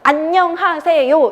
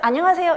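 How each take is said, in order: First: Each syllable is pronounced separately and distinctly. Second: The syllables run together smoothly with linking. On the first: The speaker calls it wrong. "이렇게 발음하는 거 너무 웃기지 않으세요?" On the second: The speaker calls it right. "연음해서"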